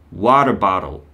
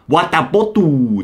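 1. アメリカ英語のアクセントで話されている。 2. カメルーン英語のアクセントで話されている。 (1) "アメリカ発音は" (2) "カメルーンは"

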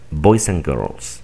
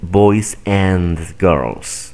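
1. La palabra 'and' se reduce a un sonido 'n'. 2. La palabra 'and' se pronuncia completa con su vocal. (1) "Un nativo normalmente pronunciaría estas frases de la siguiente manera" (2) "No dicen"

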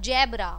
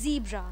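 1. यह शब्द j की आवाज़ से शुरू होता है। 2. यह शब्द z की आवाज़ से शुरू होता है। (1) "and not zebra ya jebra" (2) "it's zebra. To hum z bolenge"

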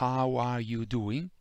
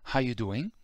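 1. Ogni parola viene detta per intero, compreso 'are'. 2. La parola 'are' viene omessa dalla frase.

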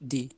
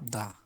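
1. স্বরধ্বনিটি একটি দীর্ঘ 'ee' ধ্বনি। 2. স্বরধ্বনিটি একটি ছোট, হালকা 'uh' ধ্বনি। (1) "শব্দের শুরুতে বাবেল থাকলে দি" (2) "শব্দ শুরুতে ... বাওয়েল না থাকে, তাহলে আমরা এটা উচ্চারণ করব দা"

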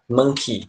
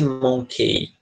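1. A vogal final soa como 'ee'. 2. A vogal final soa como 'ay'. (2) "Nunca vai ser monkey"

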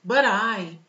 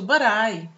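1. As duas palavras são ditas juntas. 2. As duas palavras são ditas juntas.

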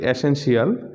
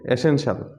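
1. শেষ অংশটি 'shee-al' এর মতো উচ্চারণ করা হয়। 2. শেষ অংশটি 'shal' এর মতো উচ্চারণ করা হয়। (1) "আমরা উচ্চারণ করি অ্যাসেনশিয়াল" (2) "এটা সঠিক উচ্চারণ হবে অ্যাসেনশাল"

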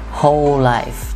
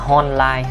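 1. Âm f cuối được phát âm rõ. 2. Âm f cuối yếu hoặc bị mất. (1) "whole life chứ không phải là" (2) "không phải là whole life ha"

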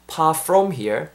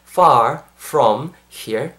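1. 한 단어만 윗니-아랫입술 F 소리가 나요. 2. 두 단어 모두 윗니-아랫입술 F 소리가 나요. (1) "한 개는 토끼 이빨, 한 개는 토끼 이빨 아니니까 안 되고" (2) "far 하실 때 토끼 이빨 한번 끌고 주시고, far from 하실 때도 토끼 이빨"

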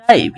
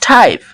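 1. শুরুর t-তে কোনো হাওয়ার ফুঁ নেই। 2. শুরুর t-তে জোরালো হাওয়ার ফুঁ আছে। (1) "নট টাইপ" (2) "ইটস টাইপ"

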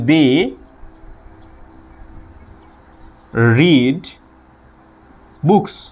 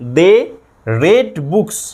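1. 'read' শব্দে একটি লম্বা ee স্বরধ্বনি আছে। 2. 'read' শব্দে একটি ছোট e স্বরধ্বনি আছে। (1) "তারা বই পড়ে" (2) "পাস্টে কি হবে"

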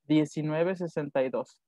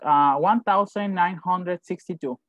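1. El año se lee como dos pares de dígitos. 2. El año se lee como un solo número completo. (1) "Lo separamos en dos y decimos 1962" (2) "no decimos 1962. No lo decimos como los números"

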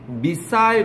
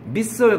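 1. 영국식 발음입니다. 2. 미국식 발음입니다. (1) "missile 그러면 British English이고요" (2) "missile 그러면 American English예요"

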